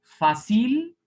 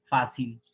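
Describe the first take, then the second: First: Fácil wrongly stressed as fa-CIL; high, loud, rising CIL at the end of Fácil; stress on last syllable. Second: Fácil as FÁ-cil, lower and falling; fácil with the stress back on the opening syllable; stress on first syllable. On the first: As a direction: throw the stress of Fácil onto the final syllable. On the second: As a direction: punch FÁ in fácil, drop the cil. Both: Shown as a demonstration.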